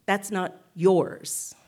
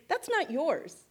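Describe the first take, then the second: First: Slow and louder, leaning hard on "yours"; stress on yours. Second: "not" lifted high and hit, "yours" falls away; stress on not. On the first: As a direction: drag it out and land on "yours". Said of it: "it's the thing the not is modifying". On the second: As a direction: punch "not" in "That's not yours". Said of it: "it isn't actually the not that I'm emphasizing". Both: Shown as a demonstration.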